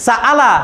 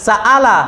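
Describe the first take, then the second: Both takes have the same delivery.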